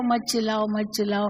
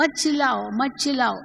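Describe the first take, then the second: First: Said in the usual way. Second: Raised, scolding mock yell; shouting at someone to stop shouting. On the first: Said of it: "कहकर". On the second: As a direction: snap it out while shouting yourself. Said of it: "पर आप खुद ही चिल्ला रहे हो".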